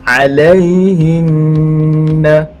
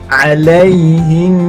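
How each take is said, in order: First: The word ends with a short vowel after the n. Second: The word ends on a nasal hum held two beats. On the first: The reading continues without stopping. "kalau kita tidak wakafkan" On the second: The reading stops at this word. "kita kena baca secara dengung dua harakat"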